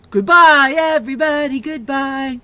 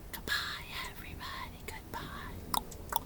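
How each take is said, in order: First: Much louder sung goodbye; sung, big cheerful goodbye; loud singing. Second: Much softer whispered singing; hushed goodbye song; quiet whisper. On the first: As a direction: sing it out loud. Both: Shown as a demonstration. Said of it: "goodbye song".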